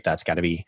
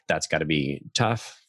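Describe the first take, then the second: First: Said in the usual way. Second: Empathetic. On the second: Shown as a demonstration. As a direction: say "tough" with real sympathy, slowing down. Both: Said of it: "an empathetic label".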